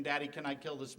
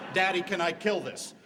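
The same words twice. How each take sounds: First: Said in the usual way. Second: A louder hint of a small boy asking daddy; lightly voiced child. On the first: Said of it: "I have personally heard the question". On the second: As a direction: play the kid holding his brother, eager. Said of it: "when he's asking the question".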